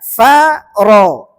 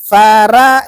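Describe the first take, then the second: First: "faro" with a full, heavy ro that darkens the vowel toward o; correct heavy ro. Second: "Fara" with a thin, light ra and open a; wrong reading. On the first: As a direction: thicken the ra in "faro" until it sounds like ro. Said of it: "ro-nya tebal". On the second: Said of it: "jangan dibaca". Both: Shown as a demonstration.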